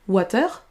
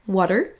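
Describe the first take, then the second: First: The word is said with French-style sounds. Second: The word is said with English sounds. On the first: The speaker calls it wrong. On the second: The speaker calls it right.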